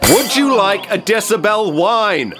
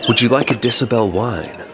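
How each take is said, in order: First: It is said loudly. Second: It is said quietly.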